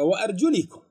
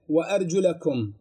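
First: The vowel before -kum is an 'i' sound. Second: The vowel before -kum is an 'a' sound. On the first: The word is in the genitive case. "في قراءة أخرى أرجل مكسورة" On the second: The word is in the accusative case. "مفتوحة منصوبة"

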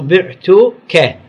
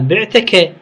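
First: The t is followed by a u vowel. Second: The t is followed by an a vowel. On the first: The speaker is the one who sold. "لازم تلفظ بعتك، يعني هذا التاء يكون شنو؟ مضموم" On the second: The listener is the one who sold. "هذا أنت اللي بعت مو أني"

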